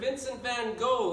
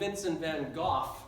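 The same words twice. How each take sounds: First: The name is pronounced in a plain, everyday way. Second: The name is pronounced in a posh, snobbish way.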